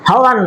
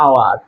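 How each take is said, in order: First: The word starts with an h sound. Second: The word starts directly with a vowel. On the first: The speaker calls it wrong. "হাওয়ার না, এটা হাওয়ার না" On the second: The speaker calls it right. "এটা আওয়ার, আ উচ্চারণ আসে"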